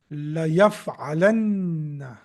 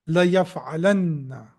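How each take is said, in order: First: La yaf'alanna said slowly, syllable by syllable; slow model word. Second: Said in the usual way. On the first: Shown as a demonstration. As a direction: spell out La yaf'alanna slowly for the class, stressing the double n. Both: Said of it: "that will be formed after you add these two letters".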